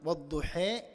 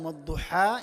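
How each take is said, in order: First: The final vowel tilts toward an 'e' sound. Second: The final vowel is a plain open 'a'. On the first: "അത്യാവശ്യം ചെരിവ് സംഭവിച്ചുകൊണ്ടാണ് വദ്ദുഹേ" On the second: "നമ്മൾ നമ്മുടെ ഓത്ത് പ്രകാരം വദ്ദുഹാ എന്നാണ്"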